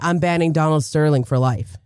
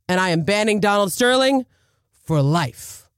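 First: It is said plainly, without extra force. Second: It is said forcefully, with extra oomph.

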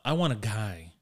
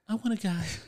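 First: It is said in his normal voice. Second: It is said in a put-on female voice.

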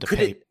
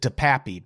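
First: The name ends on a single long 'pape' syllable. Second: The name ends in an extra 'ee' syllable. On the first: The speaker calls it right. "I'm going DePape" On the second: The speaker calls it wrong. "I've heard people pronounce it DePappy"

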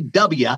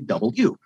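First: The letter is said with fewer, clipped syllables. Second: The letter is said with every syllable included. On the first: The speaker calls it wrong. "You can't say W" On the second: The speaker calls it right. "there's an extra syllable with the W"

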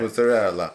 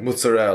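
First: Every syllable is pronounced fully through the end. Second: The final vowel is dropped off the word. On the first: This is how it is said in Italy. "pronouncing everything all the way through" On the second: This is the Italian-American way of saying it. "they don't say that in like actual Italy"

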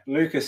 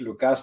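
First: The name is pronounced the English way. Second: The name is pronounced the Greek way. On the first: "Lucas in English" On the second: "Lucas στα ελληνικά"

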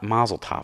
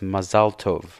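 First: It is pronounced with English-style sounds and stress. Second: It is pronounced with Hebrew-style sounds and stress. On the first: The speaker calls it wrong. "they say it in an English way" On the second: The speaker calls it right. "that's how it's supposed to be pronounced"

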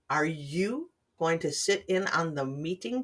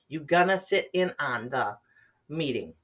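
First: The words are said in full, slowly and clearly. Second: The words are reduced and run together quickly. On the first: "Let me try this slowly" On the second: "But native speakers, we speak quickly"

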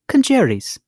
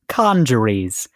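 First: It is said with a British pronunciation. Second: It is said with an American pronunciation.

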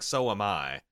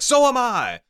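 First: It is said flat and offhand, without emphasis. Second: It is said with deadly serious intensity.

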